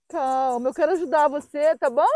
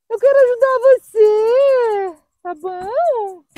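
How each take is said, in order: First: Gentle reassurance. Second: High, loud, drawn-out plea; tearful pleading. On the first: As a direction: soothe a scared dog gently. Reassuring the dog, first take. (tom calmo, tranquilizando a cachorrinha) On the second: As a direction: plead slowly with a scared dog, near tears. Pleading with the dog, near tears. (súplica chorosa, voz aguda e arrastada) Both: Real, not acted.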